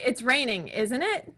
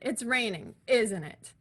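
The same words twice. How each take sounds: First: The voice rises at the end. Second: The voice falls at the end. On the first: The speaker is unsure and wants confirmation. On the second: The speaker already knows and expects agreement.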